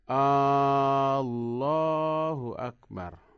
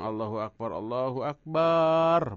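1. Vokal pada suku kata pertama yang dipanjangkan. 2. Vokal pada suku kata terakhir yang dipanjangkan. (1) "ada juga yang alifnya panjang" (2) "barnya panjang"

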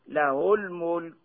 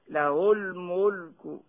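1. الحرف الأخير موقوف بلا حركة. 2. الحرف الأخير يحمل حركة خفيفة جزئية. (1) "يوقف عليه هكذا بالسكون" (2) "أو بالروم هكذا"

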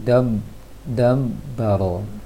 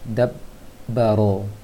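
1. Bibir menutup lemah, sehingga terdengar seperti m. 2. Bibir menekan kuat, menghasilkan b yang jelas. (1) "Kalau kurang kuat dia jadi dam dam baro" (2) "Kuatkan lagi penekanan bibirnya"

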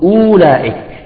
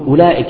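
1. الواو المكتوبة تُنطق حركةً طويلة. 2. الواو المكتوبة لا تُنطق، فتبقى الحركة قصيرة. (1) "المفروض نقول أولئك" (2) "ولكن نقول أولئك"

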